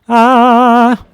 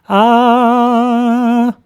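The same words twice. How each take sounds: First: The vowel sounds bright and lifted. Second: The vowel sounds warm and dark.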